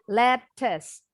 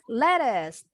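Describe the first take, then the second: First: The middle consonant is a clear t sound. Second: The middle consonant sounds like a quick d. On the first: "bacanya lettuce" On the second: "T-nya bunyinya kayak D cepat. In American English"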